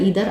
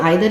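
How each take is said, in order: First: The first vowel sounds like 'ee'. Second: The first vowel sounds like 'eye'. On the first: "ईदर आप कुछ भी बोल सकते हैं" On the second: "आइदर, ईदर आप कुछ भी बोल सकते हैं"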